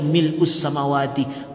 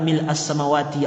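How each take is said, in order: First: The vowel after mil' is an u sound. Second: The vowel after mil' is an a sound. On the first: A plea to be raised up high like the sky. "Ketika dibaca mil'us samawati" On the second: A plea for all ease to be opened. "ketika dibaca fatah identik dengan yang terbuka"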